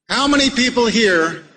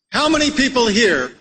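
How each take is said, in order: Both takes have the same delivery.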